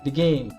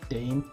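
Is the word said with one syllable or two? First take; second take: two; one. First: The word is said with two syllables. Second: The word is said with one syllable. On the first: The speaker calls it wrong. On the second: The speaker calls it right.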